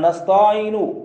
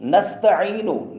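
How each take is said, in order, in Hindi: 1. "ऐन" ध्वनि से पहले वाला स्वर बढ़ाया जाता है। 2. "ऐन" ध्वनि से पहले वाला स्वर छोटा है।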